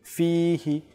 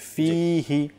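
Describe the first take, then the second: Both takes have the same delivery.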